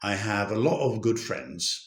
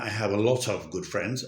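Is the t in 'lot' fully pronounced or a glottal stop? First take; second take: glottal stop; full t. First: The t in 'lot' becomes a glottal stop. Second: The t in 'lot' is fully pronounced. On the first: "আমি লট এর টিটা উচ্চারণ করিনি, তার তার জায়গায় একটা ডটল স্টপ ব্যবহার করছি।" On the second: "আমি এটা বলছি না"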